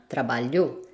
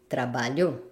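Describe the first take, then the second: First: The stress is on the last syllable. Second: The stress is on the last syllable.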